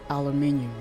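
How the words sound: The word is said the British way. "in the U K, but like they they pronounce it like aluminium"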